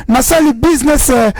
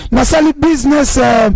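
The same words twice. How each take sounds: The two takes are said the same way.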